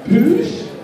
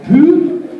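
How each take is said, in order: First: The name is said as poosh. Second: The name is said as poo. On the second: "that's not it"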